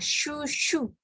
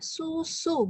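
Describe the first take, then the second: First: It uses a thick SH sound. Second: It uses a plain thin S sound. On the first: The speaker calls it wrong. "bukan shushu" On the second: The speaker calls it right. "s biasa"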